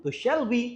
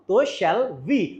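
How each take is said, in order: First: Said in the usual way. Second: Slow, drawn-out "shall we" with a rise; slow model phrase. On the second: Shown as a demonstration. Teacher drilling the answer slowly to students. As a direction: stretch out "तो shall we" slowly for the class. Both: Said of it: "समझ में आया?".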